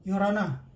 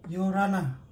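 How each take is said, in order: No difference in how they are said.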